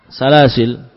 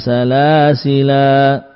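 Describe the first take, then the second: First: The word ends on the 'l' consonant. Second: The word ends with a final 'a' vowel. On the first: The final alif is ignored. "tidak menganggap alifnya" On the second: The final alif is read. "Ini saat waqaf"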